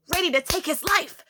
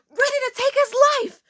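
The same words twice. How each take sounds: First: Said in the usual way. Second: High, loud hammed-up menace; dramatic emphasis. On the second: Storyteller lurking behind classmate, hammed-up fierce cry. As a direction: repeat it much higher and louder, mock-fierce. Repeats threat with mock intensity.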